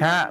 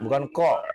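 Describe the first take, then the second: First: The vowel is an open 'a' sound. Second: The vowel is a rounded 'o' sound. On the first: The speaker calls it right. "huruf ka ya" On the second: The speaker calls it wrong.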